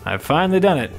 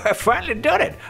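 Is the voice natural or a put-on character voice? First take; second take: natural; put-on. First: It is said in a natural speaking voice. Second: It is said in a put-on old man's voice.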